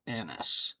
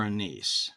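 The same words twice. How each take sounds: First: "anise" as AN-iss, stress up front; "anise" ending in a short -iss; anise pronounced AN-iss. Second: "anise" as uh-NEECE, stress at the end; "anise" rhyming with niece; anise pronounced uh-NEECE. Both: Shown as a demonstration. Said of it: "however you pronounce that".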